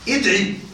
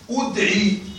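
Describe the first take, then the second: First: The first vowel is an i sound. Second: The first vowel is a u sound. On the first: "الوجه الثاني الكسر وهو الأفصح" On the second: "فلك الضم لكنه قليل"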